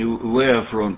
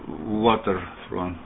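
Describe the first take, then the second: First: The word begins with a 'vari' sound. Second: The word begins with a 'water' sound. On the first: The speaker calls it wrong. "Вари, как ты говоришь" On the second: The speaker calls it right. "Water, вода"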